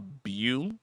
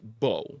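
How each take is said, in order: First: The vowel sounds like 'oo' in boo. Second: The vowel sounds like 'oh' in bow. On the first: The speaker calls it wrong. "apparently I've been saying his name wrong" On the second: The speaker calls it right. "It's pronounced Bo, like B O W"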